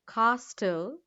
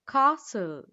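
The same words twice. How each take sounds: First: The T in the middle is sounded. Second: The T in the middle is silent. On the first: The speaker calls it wrong. "Not castle" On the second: The speaker calls it right. "Silent T"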